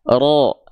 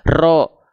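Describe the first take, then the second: First: The r is trilled briefly and lightly. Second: The r is trilled long and heavily. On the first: The speaker calls it right. "Getarannya nggak berlebihan" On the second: The speaker calls it wrong. "bukan ro ... nggak"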